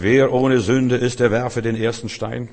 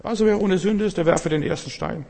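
First: WER OHNE SÜNDE slow and loud, then easing slightly on DER WERFE DEN ERSTEN STEIN; weighty, commanding stress on WER OHNE SÜNDE; authoritative emphasis. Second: Much higher-pitched, lightweight mock delivery; lacking divine authority. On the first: Acted. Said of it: "er hat die richtige Betonung gehabt". (mit Autorität betont: WER OHNE SÜNDE langsam und laut) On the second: Shown as a demonstration. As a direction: toss it off high, as if on merely human authority. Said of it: "Spreche ich in meiner Autorität". (hohe Stimme, ohne göttliche Autorität)

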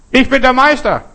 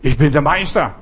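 First: High, loud boastful shout; calling out. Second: Said in the usual way. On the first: Acted. Telling listeners what to call out, loud high shout. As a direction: shout it out into the mountains.

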